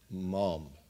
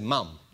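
First: The word is said with an open 'mom' vowel. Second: The word is said with a short 'mum' vowel. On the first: This is the listeners' way of saying it. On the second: This is the speaker's own way of saying it.

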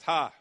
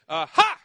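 First: It is a light, casual laugh. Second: It is a loud, startled shout. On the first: The speaker is mildly amused. The speaker calls it wrong. "like at the end of a text, ha, you know, laugh, tee-hee" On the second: The speaker is alarmed and surprised. The speaker calls it right. "crying out to Jesus in a loud voice"

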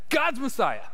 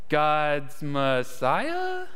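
First: It is said firmly, as a confident statement. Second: It is said hesitantly, as an unsure question. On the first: Peter is certain he is right. "I'm right, you know? He either says it like that" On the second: Peter is guessing and checking if he is right. "or he goes, God's Messiah? Am I right?"

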